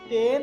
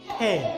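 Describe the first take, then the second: First: The first sound has no puff of air. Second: The first sound has a strong puff of air. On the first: "এখানে আছে টেন" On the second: "আমরা বলবো ঠেন"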